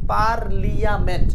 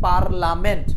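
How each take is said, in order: First: The middle is said with an extra 'ee' sound. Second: The middle is said as a plain 'la'. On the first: This helps you remember the spelling. "মনে রাখার স্বার্থে আমি উচ্চারণ করতেছি পার্লিয়ামেন্ট" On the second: This is how the word is usually said. "যেটাকে আমরা বলি পার্লামেন্ট"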